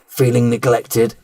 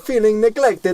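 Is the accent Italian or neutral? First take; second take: neutral; Italian. First: It is read in the speaker's ordinary accent. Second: It is read in a put-on Italian accent.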